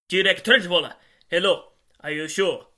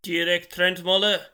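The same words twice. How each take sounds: First: Loud, higher, startled phone voice; urgent checking. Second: Loud, slow, mechanical read-out. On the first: Therese checking the name by phone, loud and urgent. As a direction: burst out with the name, then press. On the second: Therese reading a name into the phone, mechanical voice. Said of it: "mechanical voice". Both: A narrator's reading.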